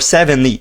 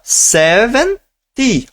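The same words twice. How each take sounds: First: The t is a soft r-like flap. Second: The t is a clear t sound. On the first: "pode ser ri" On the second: "ao invés de ser ti"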